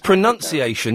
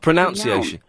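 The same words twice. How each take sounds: First: The second syllable sounds like 'nun'. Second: The second syllable sounds like 'noun'. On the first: The speaker calls it right. "It's pronunciation, There's no O" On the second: The speaker calls it wrong. "not pronunciation"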